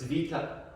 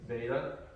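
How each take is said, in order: First: It is said with the Greek pronunciation. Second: It is said with the usual English pronunciation.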